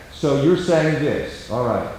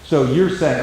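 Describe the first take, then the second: First: Slow, soft and settled; calm paraphrase. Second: Said in the usual way. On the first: Shown as a demonstration. Counselor paraphrasing a quarrelling spouse, calm and slow. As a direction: mirror it back gently and unhurried. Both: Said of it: "If you can talk in a calm, slow tone".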